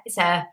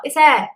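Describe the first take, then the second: First: Said in the usual way. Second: High, patient nurse reassurance, louder; reassuring nurse. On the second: Retold or imitated. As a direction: say "It's air." brightly, up high like a nurse. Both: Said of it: "it was like".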